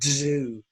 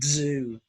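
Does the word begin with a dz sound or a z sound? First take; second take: dz; dz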